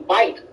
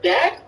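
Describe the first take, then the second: First: "back" pronounced so it sounds like "bike"; Miami pronunciation. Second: Said in the usual way. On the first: Shown as a demonstration. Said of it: "it sounds like they're saying bike". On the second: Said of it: "Like, the word back".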